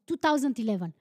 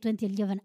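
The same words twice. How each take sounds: First: The year is read as two thousand eleven. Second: The year is read as twenty eleven. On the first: This is the speaker's preferred way of saying the year. The speaker calls it right. "No, it's 2011" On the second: This is the American way of saying the year. The speaker calls it wrong. "It's so weird to say 2011. I hate Americans saying that"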